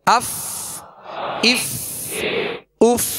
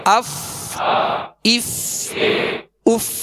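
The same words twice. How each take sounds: The two takes are said the same way.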